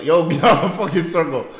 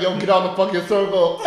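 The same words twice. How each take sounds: First: Loud mock yell from a passing car; yelled callout. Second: Laughing half-yell from a car; mock yell. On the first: Driver yelling at workers in circle, mock yell. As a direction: call the man out of the circle. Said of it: "someone just yell". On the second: Driver calling out worker in circle, laughing mock yell. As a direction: toss it out while laughing. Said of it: "He's like".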